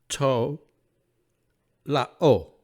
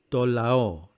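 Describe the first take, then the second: First: It is read in a scholarly, non-native Greek pronunciation. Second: It is read in a native-like modern Greek pronunciation.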